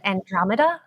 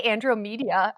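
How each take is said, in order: First: Andromeda said an-DROM-uh-duh, as a question; standard pronunciation. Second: Andromeda said an-droh-MEE-dee-uh; mispronunciation. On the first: Co-guest checking the host's pronunciation, Andromeda as an-DROM-uh-duh. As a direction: say Andromeda with a short o and "muh-duh". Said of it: "Is that how you pronounce it?". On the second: Guest admitting their own version, Andromeda as an-droh-MEE-dee-uh. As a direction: say Andromeda as if ending in "media". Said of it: "I say". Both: Shown as a demonstration.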